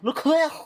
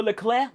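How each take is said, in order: First: Higher mock-French exclamation of disgust; disgusted French accent. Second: Said in the usual way. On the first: Streamer mimicking a driver's radio disgust, French accent. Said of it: "disgust in his French accent is outrageous".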